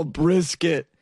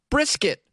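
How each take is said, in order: First: Fake-cry the word brisket; mock crying. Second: Said in the usual way. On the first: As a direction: say brisket with a hammed-up sob. Mock sob over brisket.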